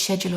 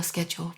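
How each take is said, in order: First: "schedule" begun with SH, as shed-yool; soft SH pronunciation. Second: "schedule" begun with SK, as sked-yool; hard SK pronunciation. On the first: Unsure which way to say it, "schedule" with SH. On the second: Unsure which way to say it, "schedule" with SK. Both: Shown as a demonstration. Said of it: "I never know if it's schedule or schedule".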